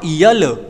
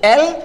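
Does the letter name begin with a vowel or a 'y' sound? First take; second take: y sound; vowel. First: It begins with a 'y' sound before the vowel. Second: It begins directly with the vowel sound. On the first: The speaker calls it wrong. "Not यल" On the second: The speaker calls it right. "एल it is called एल"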